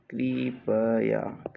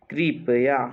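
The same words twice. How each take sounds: First: Slow, stretched कृपया; drawn-out syllables. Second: Said in the usual way. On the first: Shown as a demonstration. Teacher dictating to students, कृपया slowly in syllables. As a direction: sound out कृपया bit by bit.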